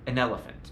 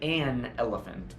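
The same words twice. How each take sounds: First: The article has a short, reduced schwa vowel. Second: The article has a full, unreduced vowel. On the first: The speaker calls it right. "we say ... the vowels become reduced to what we call the schwa" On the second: The speaker calls it wrong. "We don't say"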